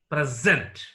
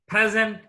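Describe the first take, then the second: First: The stress is on the second syllable. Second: The stress is on the first syllable. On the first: It is used as a verb. "is verb" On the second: It is used as a noun. "is noun"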